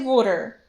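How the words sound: It is said in a Pennsylvania/Delco accent, like 'wooder'.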